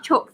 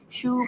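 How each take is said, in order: First: The word ends in a 'ks' sound. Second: The word ends in an open vowel sound. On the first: The speaker calls it wrong. "Not chokes" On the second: The speaker calls it right. "correct pronunciation"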